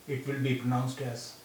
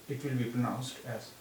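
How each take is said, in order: No difference in how they are said.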